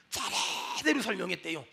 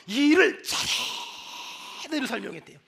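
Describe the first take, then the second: First: Hushed emphasis. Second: 차례대로 with a very long breathy 차; stress on 차례대로. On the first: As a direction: drop to a hush and stretch 차례대로. Hushed repeat of key word. (낮고 조용하게 차례대로의 '차'를 길게 늘여) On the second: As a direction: hold the 차 in 차례대로, then finish evenly. Stretches key word after angry quote. (차례대로의 '차'를 숨소리로 아주 길게 끌며 강조) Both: Shown as a demonstration.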